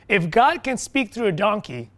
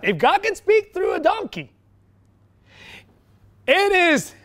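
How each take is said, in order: First: Said in the usual way. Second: Much higher, incredulous-sounding emphasis; emphatic exclamation. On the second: Real, not acted. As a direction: drive the point home at a high pitch. Repeats point in raised emphatic voice.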